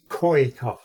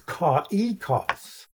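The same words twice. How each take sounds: First: The two vowels blend into one sound. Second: The two vowels are said as separate sounds. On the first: "you pronounce them as one letter" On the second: "pronounced separately"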